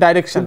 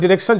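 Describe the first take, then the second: First: The first syllable sounds like 'dye'. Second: The first syllable sounds like 'dih'. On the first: "দুটোই উচ্চারণ হয়" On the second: "আমরা উচ্চারণ করবো ডিরেকশন, যেহেতু আমরা নর্মালি ব্রিটিশ ইংলিশ ব্যবহার করে থাকি"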